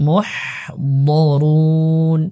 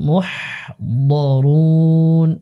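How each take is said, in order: Both takes have the same delivery.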